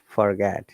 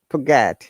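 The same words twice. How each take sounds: First: The R after the first vowel is pronounced. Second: The R after the first vowel is dropped. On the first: "Americans will say forget" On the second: "British will say forget"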